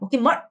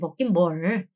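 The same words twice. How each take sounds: First: It is said harshly and bluntly. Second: It is said gently and softly.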